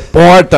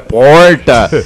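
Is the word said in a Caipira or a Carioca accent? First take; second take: Carioca; Caipira. First: It is said in a Rio de Janeiro Carioca accent. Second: It is said in a local inland Caipira accent. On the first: "A porta lá é porta" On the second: "não é porta"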